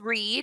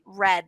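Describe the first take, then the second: First: The vowel is long, like in 'reed'. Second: The vowel is short, like in 'red'. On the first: The action happens now or habitually. "it's pronounced in present tense" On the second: The action happened in the past. "in past tense, you it's spelt the same. You just say red, like the color"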